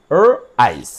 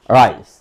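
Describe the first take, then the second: First: "র, আইস" split into R sound, pause, then "আইস"; sounded out in parts. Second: "রাইস" run together as one word; blended word. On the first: Teacher shows pupils how to spell out rice, saying "র, আইস" separately. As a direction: break it up: "র", then a lower "আইস". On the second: Teacher blends the sounds for pupils, "রাইস" said whole. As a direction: join R and ice smoothly into "রাইস". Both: Shown as a demonstration. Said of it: "এই যে, র".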